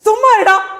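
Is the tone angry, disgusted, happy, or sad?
angry. It is said in an angry tone. "சொல்ல போறீங்க கோவமா"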